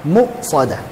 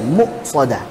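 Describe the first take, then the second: The two takes are said the same way.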